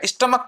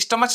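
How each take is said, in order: First: The word ends with a k sound. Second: The word ends with a ch sound. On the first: The speaker calls it right. "स्टमक पढ़ा जाता है" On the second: The speaker calls it wrong. "ये स्टमच नहीं पढ़ा जाएगा"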